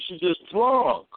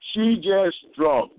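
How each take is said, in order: First: Said in the usual way. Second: Put-on She just drunk, each word drawn out slowly; slow emphatic repeat. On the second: Shown as a demonstration.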